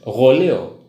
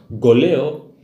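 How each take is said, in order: First: It starts with a throaty, fricative gh sound. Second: It starts with a plain hard g sound. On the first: The speaker calls it right. "terdiri dari suku eh, dari dua huruf G dan H, ro" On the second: The speaker calls it wrong. "kita sebut hanya dengan goleo"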